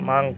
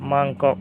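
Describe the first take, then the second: First: The word is said in a shortened form. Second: The word is said in its full form.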